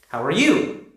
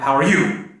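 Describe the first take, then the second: First: The voice rises at the end. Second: The voice falls at the end.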